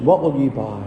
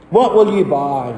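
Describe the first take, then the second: First: Said in the usual way. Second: Lightly called sales challenge; merchant calling out. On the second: Acted. Merchant to Christian in Vanity Fair, lightly calling out. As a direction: put it to the customer like a hawker. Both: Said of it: "That was called out by the merchant".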